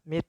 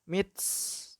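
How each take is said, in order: First: The final t ends with only a light breath. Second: The final t ends in a strong hissing sound. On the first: The speaker calls it right. "hamesnya adalah hanya menurunkan li, ujung lidah" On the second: The speaker calls it wrong. "jangan terlalu berlebihan, sehingga mits"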